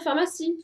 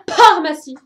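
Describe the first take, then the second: First: The word begins with an f sound. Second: The word begins with a p sound. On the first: The speaker calls it right. "vous n'allez pas m'écrire pharmacie" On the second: The speaker calls it wrong. "la rune qui correspond à la lettre P et la rune qui correspond à la lettre H"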